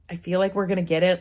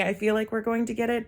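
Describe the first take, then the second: First: Said in the usual way. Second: Higher, tentative quote, a touch softer; scared to say it. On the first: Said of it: "Like, you're scared to say". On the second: Retold or imitated. Vlogger retelling their hope about the offer, scared to say it. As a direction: voice it cautiously, pitched up. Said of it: "you're scared to say".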